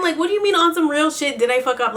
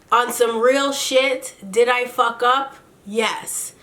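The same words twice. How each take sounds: First: Fast, high-pitched disbelief; mock incredulous. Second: Mock his slow, deliberate confession; slow-talking Kirk. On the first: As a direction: throw his words back at him quickly. Quotes him back in disbelief. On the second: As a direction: imitate a very slow talker, drawn out. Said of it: "He talks mad slow".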